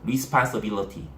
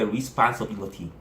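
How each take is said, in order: No difference in how they are said.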